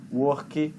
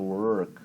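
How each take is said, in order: First: "Work" as "wor-kee", Brazilian-style added final vowel; Brazilian accent. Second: "work" with a thick curled R and no vowel after the k; mouthful R. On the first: Retold or imitated. Teacher imitating a student's mistake, Brazilian accent. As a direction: force a Brazilian "ee" onto the end of "Work". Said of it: "pronúncia portuguesada, brasileirada, de forçar o final". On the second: Shown as a demonstration. Teacher showing English R, as if something in the mouth. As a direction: say "work" low, as if your mouth is full. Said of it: "com essa coisa na boca mesmo".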